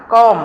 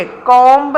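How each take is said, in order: First: "കോം" ending on m; silent b. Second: "കോംബ്" with a sounded b; wrong pronunciation. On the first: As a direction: say "കോം" as kohm, no b. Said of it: "ബി എപ്പോഴും silent". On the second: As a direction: say "കോംബ്" as kohmb. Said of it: "കോംബ് എന്നല്ല". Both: Shown as a demonstration.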